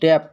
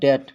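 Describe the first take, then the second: First: A b or p sound comes before the t. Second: No sound comes between the vowel and t. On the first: The speaker calls it wrong. "ये लिखा है डेप्ट" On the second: The speaker calls it right. "लेकिन पढ़ा जाएगा डेट"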